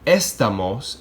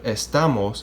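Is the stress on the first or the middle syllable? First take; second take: first; middle. First: The stress is on the first syllable. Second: The stress is on the middle syllable. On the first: The speaker calls it wrong. "then you would need to accentuate the written accent on the E" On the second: The speaker calls it right. "since the word is estamos, okay, second to last"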